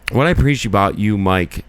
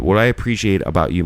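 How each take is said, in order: First: Slurred. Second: Said in the usual way. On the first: Real, not acted. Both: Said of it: "I kinda slurred that a little bit".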